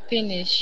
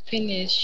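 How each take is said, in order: The two takes are said the same way.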